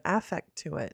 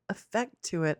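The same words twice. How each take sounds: First: "affect" with a clear short A at the front; alternate pronunciation, affect. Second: "effect" with an unstressed opening vowel; first pronunciation, effect. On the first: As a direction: say "affect" as AFF-ect. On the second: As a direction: say "effect" as uh-FECT. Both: Shown as a demonstration. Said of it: "Is it effect or affect?".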